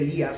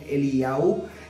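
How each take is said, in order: First: The name ends in an 'ee-as' sound. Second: The name ends in an 'ow' sound. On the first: The speaker calls it wrong. "no se dice Elías" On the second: The speaker calls it right. "sino Eliau"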